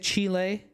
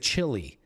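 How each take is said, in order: First: It is said the Spanish way, unlike chili. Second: It is said the American way, like chili. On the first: The speaker calls it right. "Do you say Chile?" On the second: The speaker calls it wrong. "Americans say chili"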